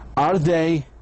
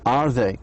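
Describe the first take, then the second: First: The voice rises at the end. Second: The voice falls at the end. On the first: The speaker calls it wrong. "I didn't say" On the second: The speaker calls it right. "falling down. It goes down"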